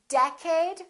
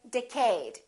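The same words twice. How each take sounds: First: The stress is on the first syllable. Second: The stress is on the second syllable. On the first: The speaker calls it right. "it's the first one. It's decade" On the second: The speaker calls it wrong. "a lot of people make a mistake"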